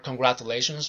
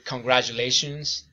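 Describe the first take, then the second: First: The middle consonant is said without a 'j' sound. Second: The middle consonant is said as a 'j' sound. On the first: The speaker calls it wrong. "I used to do it wrong" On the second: The speaker calls it right. "working on the consonant ja in words like"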